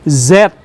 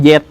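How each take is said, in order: First: The letter name starts with a buzzing z sound. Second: The letter name starts with a j sound. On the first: "Z itu mengeluarkan energi yang lebih besar" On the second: "maka orang Sunda nyebutnya jet"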